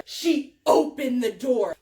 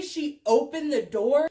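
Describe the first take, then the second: First: "opened" punched loud, each word set apart; emphatic stress. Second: Said in the usual way. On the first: Shown as a demonstration. Teller stressing how far it went, "opened" said loud and deliberate. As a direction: hit "opened" hard. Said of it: "when I say she opened the door". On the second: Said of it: "when I say".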